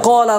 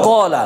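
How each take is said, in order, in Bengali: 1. প্রথম স্বরটা ভারী আর গোলাকার। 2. প্রথম স্বরটা ভারী আর গোলাকার।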